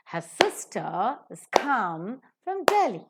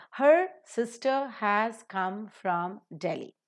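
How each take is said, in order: First: "sister", "come", "Delhi" as slow beats, rest reduced; stress on sister, come, Delhi. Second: Said in the usual way. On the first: Shown as a demonstration. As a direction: stretch "sister", "come", "Delhi", shrink "has" and "from". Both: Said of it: "give the stress to sister".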